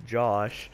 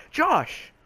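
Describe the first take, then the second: First: Said in the usual way. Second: High, falling shout of a name; imitating angry teacher. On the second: Teacher catching another kid out, calling out sharply.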